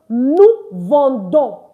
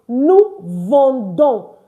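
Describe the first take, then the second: The two takes are said the same way.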